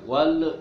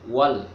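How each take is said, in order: First: The final l is released with a bouncing echo. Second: The final l is held clearly without a bounce. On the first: The speaker calls it wrong. "Tidak boleh dipantulkan, jangan wal, nah nggak boleh" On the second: The speaker calls it right. "Jadi dibaca jelas si lamnya ya"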